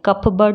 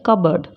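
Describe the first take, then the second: First: The p sound is pronounced in the middle. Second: The p sound is silent in the middle. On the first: The speaker calls it wrong. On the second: The speaker calls it right.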